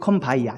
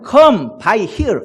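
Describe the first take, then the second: First: The last word is pronounced like 'ya'. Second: The last word is pronounced like 'here'. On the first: This is how the song's original singers pronounced it. "근데 come by ya 이렇게" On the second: This is the standard pronunciation. "정확하게는 come by here 이렇게 해야 돼요"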